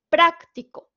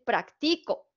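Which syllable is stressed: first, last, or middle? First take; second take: first; middle. First: The stress is on the first syllable. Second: The stress is on the middle syllable. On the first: It is the adjective meaning practical. "tiene la sílaba tónica en pra" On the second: It means I practice. "si yo se la pongo en la siguiente"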